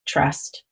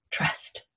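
First: "trust" said softer and lower; softer echo. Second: "trust" whispered with no voice. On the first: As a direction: drop "trust" down to a hush. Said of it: "number nine is trust". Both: Shown as a demonstration.

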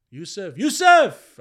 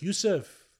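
First: High, loud, drawn-out shout; insistent calling out. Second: Higher, slightly louder call; retold father trying to get attention. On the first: Retold or imitated. Father to zoned-out son, insistent loud call. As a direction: imitate a father shouting for attention. Father calls again, much louder. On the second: Father calls his zoned-out son, calling out.

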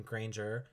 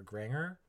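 First: Granger with a long "ay" and soft j; Granger, rhyming with "stranger"; first pronunciation. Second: Granger with "ng" and no j sound; Granger, rhyming with "hanger"; alternative pronunciation. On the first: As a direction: say Granger as GRAYN-jer. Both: Shown as a demonstration. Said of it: "however you say it".

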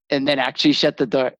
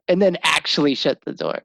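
First: Said in the usual way. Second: Laughing. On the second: Real, not acted. Repeats line, laughing.

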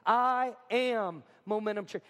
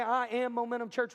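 First: Slow "I am Momentum Church" for a crowd to join; "I am Momentum Church" drawn out as a call to repeat. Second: Said in the usual way. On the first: Shown as a demonstration. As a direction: stretch out "I am Momentum Church", leading a group recital. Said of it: "Would you say that with me?". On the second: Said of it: "Would you say".

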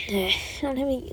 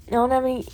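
First: Soft, sighed whisper; deflated whispered repeat; sighing whisper. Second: Said in the usual way. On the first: Real, not acted. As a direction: let it out on a sigh. Repeats it with a sigh.

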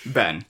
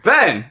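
First: Said in the usual way. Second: Louder, higher retold phone greeting; urgent calling out. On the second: Retelling his call to Ben, urgent address. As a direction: call the friend's name with urgency.

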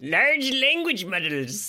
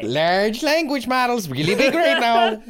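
First: Slow, grand announcer read; grand slow announcement. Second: Mock grandiose. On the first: Acted. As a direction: savor each word like a trailer voice. Echoing with grandeur.

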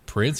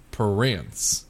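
First: Said in the usual way. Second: Slow Southern "Prince" stretched into two syllables; Alabama Southern accent. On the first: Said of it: "Instead of saying Prince". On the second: Shown as a demonstration. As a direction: say "Prince" as puh-RINCE, slow Alabama drawl. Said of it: "Southern's more of adding syllables".

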